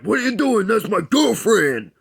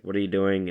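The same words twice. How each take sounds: First: High, loud, indignant outburst; angry boyfriend. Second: Said in the usual way. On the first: Retold or imitated. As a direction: bark it like a jealous jock. Angry boyfriend confronts the kisser.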